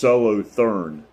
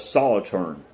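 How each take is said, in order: First: It is said the way the spelling suggests. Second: It is said the way local people say it. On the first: The speaker calls it wrong. "looks like it it would be pronounced Solothurn" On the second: The speaker calls it right. "Solothurn is how they pronounce it"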